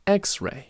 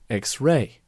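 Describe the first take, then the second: First: The stress is on the first part. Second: The stress is on the second part. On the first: This is the current way of saying it. "the stress is now on the first part of the word" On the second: This is the older way of saying it. "the stress used to be in the second word"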